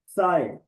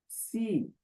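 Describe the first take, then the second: First: The vowel is an 'eye' diphthong. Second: The vowel is a long 'ee' sound. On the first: "सी या साए" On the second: "सी या साए"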